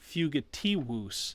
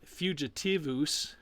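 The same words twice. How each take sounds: First: The last consonant is a W sound. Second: The last consonant is a V sound. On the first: The speaker calls it right. "So you have that double U sound" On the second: The speaker calls it wrong. "it's not fugitivus"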